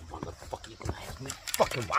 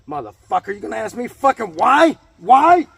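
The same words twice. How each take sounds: First: Hushed, voiceless, seething whisper; menacing whisper. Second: Builds to a loud, high yell on why; furious shout. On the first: Ranting at viewers who ask why, in a seething whisper. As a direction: breathe it out low like a threat. Mock rant, whispered first take. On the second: Ranting at viewers who ask why, exploding into a shout. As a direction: blow up at them on the last why. Mock rant, exploding second take. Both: Acted.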